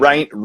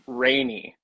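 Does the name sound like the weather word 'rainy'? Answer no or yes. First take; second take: no; yes. First: It does not sound like the weather word. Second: It sounds like the weather word rainy. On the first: The speaker calls it wrong. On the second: The speaker calls it right. "it's rainy, like the weather"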